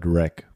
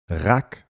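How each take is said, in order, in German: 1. Das Wort hat einen englischen Vokal, wie in 'reck'. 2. Das Wort hat einen deutschen Vokal, wie in 'rack'. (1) "statt Rack" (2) "warum sagst du als schwäbischer Wortjongleur Rack"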